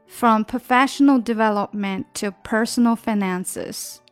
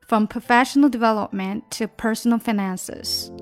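No difference in how they are said.

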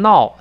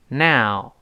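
First: It sounds like the Chinese syllable nao. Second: It has an English n and ow diphthong. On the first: The speaker calls it wrong. "好多人读成闹" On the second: The speaker calls it right. "先读一下这个词now"

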